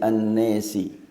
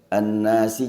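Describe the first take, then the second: First: The long vowel is tilted toward 'e'. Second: The long vowel is a plain open 'a'. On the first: This is the reading of one transmitter. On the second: This is the usual reading.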